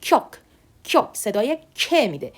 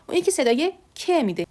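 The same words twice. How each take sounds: First: Tense, doubled k in "کیوک"; doubled consonant. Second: Gentler, undoubled k in "ک"; softer k. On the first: Teacher showing the fuller Korean letter, tense k. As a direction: press the k of "کیوک" as if it were doubled. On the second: Teacher contrasting the other Korean letter, softer k. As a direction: let the "ک" out without doubling it. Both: Shown as a demonstration.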